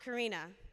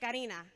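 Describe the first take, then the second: First: The name is said with an anglicized pronunciation. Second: The name is said with its native pronunciation. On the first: This is how other people mistakenly say her name. The speaker calls it wrong. "not Karina" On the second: This is how her family says her name. The speaker calls it right. "My name is Karina"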